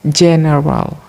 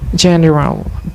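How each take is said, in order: First: The word begins with a hard 'g' sound. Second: The word begins with a soft 'j' sound. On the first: The speaker calls it wrong. "replacement of sound ja with ga" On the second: The speaker calls it right. "which should be pronounced general"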